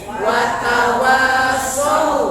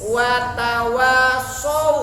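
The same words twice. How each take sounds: The two takes are said the same way.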